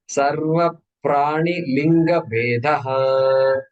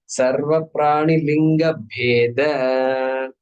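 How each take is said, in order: First: The last word ends with a 'ha' sound. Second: The last word ends without a 'ha' sound. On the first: The speaker calls it wrong. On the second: The speaker calls it right.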